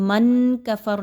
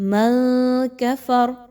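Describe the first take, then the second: First: The n sound is pronounced fully and clearly. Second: The n sound is hidden, without touching the tongue. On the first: The speaker calls it wrong. "मन कफर नहीं पढ़ना" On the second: The speaker calls it right. "कैसे पढ़ेंगे?"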